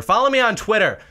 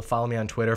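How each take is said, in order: First: "Follow me on Twitter!" called out higher and louder; shouted plug. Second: Said in the usual way. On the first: Shown as a demonstration. Plugging his Twitter to viewers, calling it out louder. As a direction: call out "Follow me on Twitter!" with a punch on "me".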